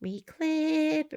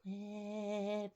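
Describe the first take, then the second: First: "Reclip" lifted high and drawn out; sing-song reclip. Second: "reclip" dropped much softer, almost under the breath; trailing off. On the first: [name] sings the word to herself while clipping, lilting. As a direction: chirp the word "Reclip" up high as you clip. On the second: [name] repeats the word to herself, fading out. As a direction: let "reclip" fade away to nothing. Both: Real, not acted.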